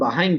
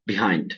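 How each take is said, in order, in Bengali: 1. প্রথম সিলেবলে 'a' স্বরধ্বনি আছে, 'ba'। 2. প্রথম সিলেবলে 'i' স্বরধ্বনি আছে, 'bi'। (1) "অনেকে এটার উচ্চারণ বাহাইন্ড বলে" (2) "ব্রিটিশ আমেরিকান দোনো উচ্চারণে বিহাইন্ডই বলে"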